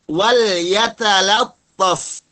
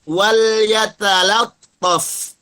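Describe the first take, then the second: Both takes have the same delivery.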